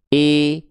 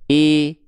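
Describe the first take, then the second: First: The vowel leans toward an e sound. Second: The same.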